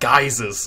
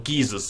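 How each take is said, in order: First: The first syllable rhymes with 'guy'. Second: The first syllable rhymes with 'gee'. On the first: "I'm a geyser kind of guy" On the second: "if that's your pronunciation"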